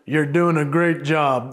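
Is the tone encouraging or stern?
stern. The voice sounds stern and harsh. The speaker sounds mean. "that's the stern version"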